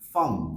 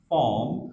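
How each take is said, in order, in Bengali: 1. স্বরধ্বনিটি একটি ছোট, নিরপেক্ষ ধ্বনিতে পরিণত হয়েছে। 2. স্বরধ্বনিটি পূর্ণ এবং স্পষ্টভাবে উচ্চারিত। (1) "উইক সাউন্ডটা" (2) "স্ট্রং সাউন্ড"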